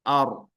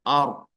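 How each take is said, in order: The two takes are said the same way.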